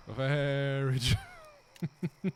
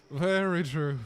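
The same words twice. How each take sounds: First: Very slow mock agreement. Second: Said in the usual way.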